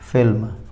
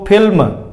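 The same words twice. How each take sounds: First: It starts with an f, lips not closing. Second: It starts with both lips closing, ph. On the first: The speaker calls it right. "ठीक है" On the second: The speaker calls it wrong. "ऐसे नहीं"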